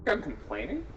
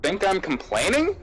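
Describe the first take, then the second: First: Quiet question. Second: COMPLAINING swooping up high at the end; repeated question. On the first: Speaker asking if listener thinks so, quiet question. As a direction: ask softly, pitch swooping up at the end. Question not heard, asked again. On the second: Repeating for a listener, COMPLAINING rising high. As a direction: ask it audibly, lifting COMPLAINING into a high rise. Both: Real, not acted.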